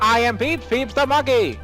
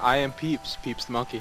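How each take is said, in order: First: It is said in a put-on announcer voice. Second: It is said in an ordinary speaking voice. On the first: The speaker calls it right. "the other voice" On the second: The speaker calls it wrong. "That's not the voice you use"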